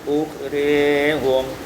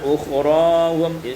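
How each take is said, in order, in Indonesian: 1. Vokal setelah r condong ke i. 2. Vokal setelah r adalah a terbuka biasa.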